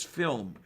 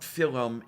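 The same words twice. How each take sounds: First: Said in the usual way. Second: Slow FILL-um with extra vowel; two-syllable film. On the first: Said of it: "it is film". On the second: Shown as a demonstration. Co-host showing the form school corrected, film as fill-um. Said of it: "It's not film".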